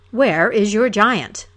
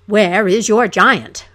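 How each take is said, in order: First: Slow, loud challenging call; a slow, loud, demanding cry; hero's cry. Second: Slow, much louder roar; full booming roar; roaring hero. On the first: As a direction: call it out to find the giant. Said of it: "the hero cried". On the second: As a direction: bellow it, stand your ground. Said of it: "roared he". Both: Acted.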